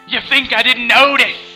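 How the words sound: It is said in a put-on character voice.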